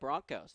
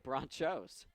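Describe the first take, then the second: First: The middle consonant is a hard K sound. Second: The middle consonant is a CH sound. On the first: The speaker calls it right. "it's pronounced Broncos with a hard K" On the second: The speaker calls it wrong. "I actually am mispronouncing it"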